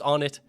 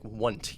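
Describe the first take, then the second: First: The first part sounds like the word on. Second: The name is squeezed into one syllable. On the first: The speaker calls it right. "even though I know it's On It" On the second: The speaker calls it wrong. "like all in one syllable"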